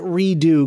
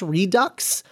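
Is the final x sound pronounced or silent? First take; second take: silent; pronounced. First: The word ends without an x sound. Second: The word ends with a clear x sound. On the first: "do you pronounce it redo because it's like a French word" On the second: "Is that pronounced Redux"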